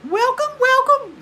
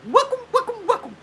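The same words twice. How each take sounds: First: Loud, extremely high falsetto attempt; high imitation, missed. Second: Very high, laughing falsetto mimicry; quick high imitation. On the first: Trying to get as high as she does, loud falsetto imitation. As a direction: overshoot into a loud falsetto greeting. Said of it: "get as high as she does". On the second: Showing how she does it real quick, high-pitched imitation. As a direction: rattle the greeting off in falsetto. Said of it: "She does like that real quick".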